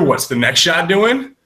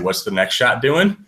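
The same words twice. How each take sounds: First: It is said noticeably louder. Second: It is said at a normal volume.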